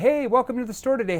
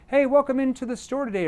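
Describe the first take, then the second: First: It is said fast. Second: It is said slowly.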